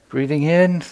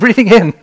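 First: It sounds doubtful and skeptical. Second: It sounds nervous and anxious.

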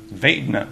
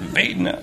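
No difference in how they are said.

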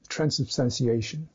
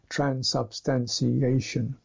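First: It is said fast, the ending nearly swallowed. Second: Every syllable is said evenly and fully. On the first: "it's running so fast that it almost melts away" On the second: "level syllable"

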